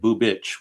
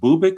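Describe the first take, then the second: First: The name ends with a ch sound. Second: The name ends with a hard k sound. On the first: "like there's an H there that's not really said" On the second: "is this pronounced Bubic"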